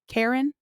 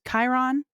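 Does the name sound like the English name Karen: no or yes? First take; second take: yes; no. First: The name sounds like Karen. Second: The name does not sound like Karen. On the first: "I've heard it pronounced Karen" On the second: "Chiron is how I've always said it"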